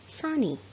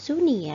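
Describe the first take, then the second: First: The first vowel sounds like 'u' in 'sun'. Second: The first vowel sounds like 'oo' in 'soon'. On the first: The speaker calls it right. "tetapi sunny" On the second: The speaker calls it wrong. "cara membacanya bukan sunny ya"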